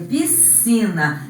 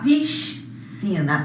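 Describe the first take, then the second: First: The s and c merge into one s sound. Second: The s and c are said as two sounds. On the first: The speaker calls it right. "é piscina. Aqui representa o som C" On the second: The speaker calls it wrong. "nós não devemos falar piscina"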